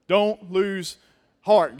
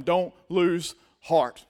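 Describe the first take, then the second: First: Loud, the word heart punched; loud call and response. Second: Slow and deliberate. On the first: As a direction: call it out to the room. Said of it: "Good job". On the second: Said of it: "look at somebody sitting beside you and tell them". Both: Shown as a demonstration.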